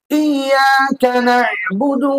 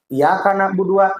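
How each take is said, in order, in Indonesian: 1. Bunyi y dibaca panjang dan digandakan. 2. Bunyi y dibaca pendek dan tunggal. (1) "Jika pakai tasdid" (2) "Lamun teu nganggo tasdid berarti membuang satu huruf"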